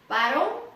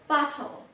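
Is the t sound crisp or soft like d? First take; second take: soft; crisp. First: The t sounds soft, like a d. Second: The t is pronounced crisply.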